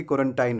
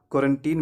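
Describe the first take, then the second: First: क्वारंटाइन ending in "tine"; wrong pronunciation. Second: Put-on क्वारंटीन with "teen" at the end; long ee closing क्वारंटीन; correct pronunciation. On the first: Teacher shows what not to say, क्वारंटाइन with "tine". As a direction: rhyme the end of क्वारंटाइन with "line". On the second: Teacher contrasts right with wrong, क्वारंटीन as "teen". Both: Shown as a demonstration. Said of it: "ना कि क्वारंटाइन में".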